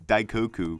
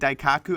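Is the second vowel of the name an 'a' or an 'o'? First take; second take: o; a. First: The second vowel sounds like 'o'. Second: The second vowel sounds like 'a'. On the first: The speaker calls it right. "you're not saying it right. It's Daikoku" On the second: The speaker calls it wrong. "I said Daikaku in a video once"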